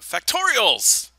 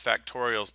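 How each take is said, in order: First: It is said with lively excitement. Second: It is said flatly, without excitement. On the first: "maybe I should say it with a little more excitement" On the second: "Not just factorials"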